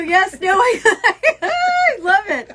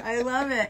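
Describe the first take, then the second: First: High, loud and slow, laughing through it; gushing with delight. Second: Said in the usual way. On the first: Real, not acted. Thanking friend for the sign, delighted and laughing.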